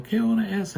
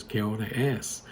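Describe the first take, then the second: First: "¿Qué hora es?" called out much higher and a bit louder; tipsy mock yell. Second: Said in the usual way. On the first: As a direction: hoot "¿Qué hora es?" like a buzzed mom across the bar. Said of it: "and then she'd yell". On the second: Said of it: "the only Spanish she knows, which is".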